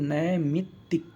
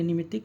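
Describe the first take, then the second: First: नैमित्तिक slowly, "nai-mit-tik"; correct pronunciation. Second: निमित्तिक opening on short "ni"; mispronounced word. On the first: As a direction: sound out नैमित्तिक with a long opening nai. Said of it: "क्या होना चाहिए?". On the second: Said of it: "ये गलत लिखा है". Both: Shown as a demonstration.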